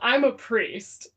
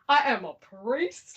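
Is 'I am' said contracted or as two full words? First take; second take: contracted; full. First: I am is contracted into one syllable. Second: I and am are said as two words. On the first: The speaker calls it wrong. "I'm not even saying. Let me let me say it correctly" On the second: The speaker calls it right. "Let me say it correctly"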